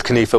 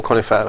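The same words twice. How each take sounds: First: Conifa as kuh-NEE-fa; alternative pronunciation. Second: Conifa as KON-ih-fa; alternative pronunciation. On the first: Guest offering the host both ways, conifa said kuh-NEE-fa. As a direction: say conifa with stress on a long middle NEE. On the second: Guest offering the host both ways, conifa said KON-ih-fa. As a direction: say conifa with stress up front on KON. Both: Shown as a demonstration. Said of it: "however you".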